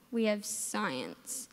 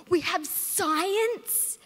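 First: Slow, low, deflated groan; dreading. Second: Gleeful drawn-out cheer; excited. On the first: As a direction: sink into disappointment. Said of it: "But at the same time". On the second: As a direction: stretch it out like the best news ever. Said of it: "that one class where you're like". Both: Pretend.

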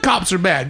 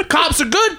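First: "cops are bad" dropped much lower; low falling bad. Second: "Cops are good" with good rising; cheerful rising good. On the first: To podcast friends, mocking flip-flop, bad dropped low. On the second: To podcast friends, mocking flip-flop, good rising. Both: Shown as a demonstration.

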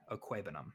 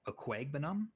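First: Okwuegbunam with the G dropped; trying out Okwuegbunam without the G; corrected, silent G. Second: Okwuegbunam with a hard G, as a rising question; querying Okwuegbunam as oh-KWAYG-buh-nam; pronounced G. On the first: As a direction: say Okwuegbunam as oh-KWAY-buh-nam. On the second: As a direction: ask Okwuegbunam, sounding the G before the B. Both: Real, not acted. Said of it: "You don't pronounce the G".

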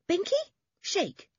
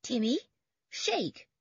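First: Very high, eager order; boy's dog command. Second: High, separated two-word order; command. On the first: Toby tells his collie to shake, eager command. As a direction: prompt your dog like a keen boy. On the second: George orders Timmy to shake paws, commanding. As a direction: command your dog, pausing after the name. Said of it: "commanded George". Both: A narrator's reading.

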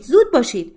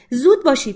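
First: «زود» دوباره بلند و بالا با افت پایانی; urgent hurry repeated. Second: با تأکید بر «زود» هل بده; urgent hurry. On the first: («زود» را باز هم بلند و فوری بگو) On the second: («زود» را بلند و تند بگو) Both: Acted.

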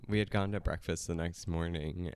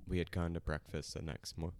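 First: Said in the usual way. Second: Choking mid-sentence; words cut off by choking. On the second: Real, not acted. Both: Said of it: "just choking a little bit".

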